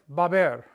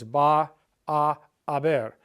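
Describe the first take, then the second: First: The words merge quickly into two syllables. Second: Three separate words are said slowly with breaks. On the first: This is how people really say it. "But people will say it" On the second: It shows clearly that there are three words. "teachers will slow it down"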